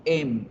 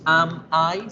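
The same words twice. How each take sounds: First: Am I blended into one linked ema-i; the right way: am runs straight into I; linked pronunciation. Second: Am I said as two separate words, am then I; the wrong way: am I as two separate words; wrong pronunciation. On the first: Teacher showing students the right way, am I linked. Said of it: "escuchen la pronunciación". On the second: Teacher showing students the wrong way, am I said apart. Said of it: "No decimos am I". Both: Shown as a demonstration.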